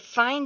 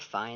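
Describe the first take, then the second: First: It is said warmly, sounding pleased. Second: It is said grudgingly, sounding reluctant. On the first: The work was excellent. "You need to know the correct intonation" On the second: The speaker agrees unwillingly. "It's really different from"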